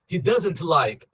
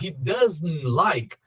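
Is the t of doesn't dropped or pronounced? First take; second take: pronounced; dropped. First: The t is pronounced, so the words stay separate. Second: The t is dropped, so the words run together. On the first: The speaker calls it wrong. "eu não colo" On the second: The speaker calls it right. "vou conseguir ter a conexão"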